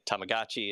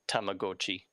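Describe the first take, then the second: First: The word is said with an English pronunciation. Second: The word is said with a Japanese pronunciation. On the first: "everyone's just gotten used to calling it Tamagotchi" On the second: "if you were to like pronounce it the way it's it's written in Japanese"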